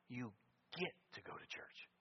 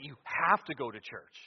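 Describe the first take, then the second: First: "get" set apart after a pause, hushed; hushed, almost whispered emphasis on "get"; stress on GET. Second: "have" hit hard and louder; "have" voiced firmly, as an obligation; stress on HAVE. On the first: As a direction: drop soft and linger before and on "get". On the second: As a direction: lean heavily on the word "have". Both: Shown as a demonstration. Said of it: "So there's a difference".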